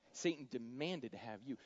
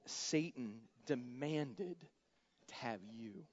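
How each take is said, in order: First: Said in the usual way. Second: Ominous warning. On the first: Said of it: "repeated plainly". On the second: Retold or imitated. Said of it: "He says, "Behold".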